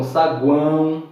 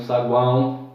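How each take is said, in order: First: Said in the usual way. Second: Saguão said slowly with the guão glide clear; careful saguão. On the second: Shown as a demonstration. Teacher repeating saguão carefully. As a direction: stress each vowel of saguão. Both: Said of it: "outro exemplo".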